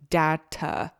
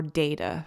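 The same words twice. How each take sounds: First: "Data" with a short flat a, like tah-tuh; pronunciation. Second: "data" with a long a, like DAY-tuh; pronunciation. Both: Shown as a demonstration. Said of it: "for some of you who pronounce it like that".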